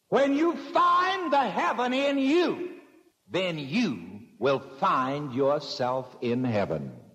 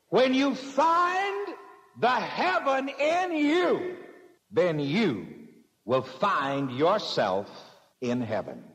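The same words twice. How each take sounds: First: The sentence is spoken at a normal pace. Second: The sentence is spoken very slowly.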